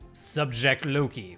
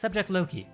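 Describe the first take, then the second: First: It is said in a lower-pitched voice. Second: It is said in a higher-pitched voice. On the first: The speaker calls it wrong. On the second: The speaker calls it right.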